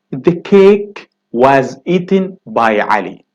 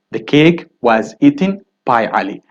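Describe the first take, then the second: First: Slowed, careful reading of the example; slow model sentence. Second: Said in the usual way. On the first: Shown as a demonstration. Teacher reading the example sentence slowly to students. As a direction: read it slowly for the class. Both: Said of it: "he said".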